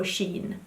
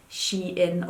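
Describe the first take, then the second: First: "Shein" said as SHEEN; one-syllable pronunciation. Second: "Shein" said as SHE-in; two-syllable pronunciation. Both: Shown as a demonstration. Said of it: "how it's pronounced".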